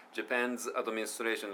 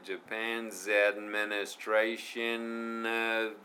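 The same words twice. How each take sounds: First: "Japan's administration" split apart; choppy pronunciation. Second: Very slow, "Japan's administration of" joined; slow linked pronunciation. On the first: Teacher mimicking the learner's choppy version. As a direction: break "Japan's" away from "administration". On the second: Teacher modelling the linked version for students. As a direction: stretch out "Japan's administration of" smoothly. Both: Shown as a demonstration. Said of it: "じゃなくて".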